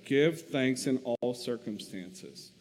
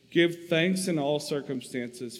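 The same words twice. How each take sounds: First: "Give thanks in all circumstances" slowed, each word given weight; slow emphasis. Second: Said in the usual way. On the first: Shown as a demonstration. [name] pointing Corey to God's answer, slow and emphatic. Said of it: "That's his answer".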